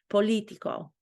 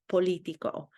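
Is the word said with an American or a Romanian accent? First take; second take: Romanian; Romanian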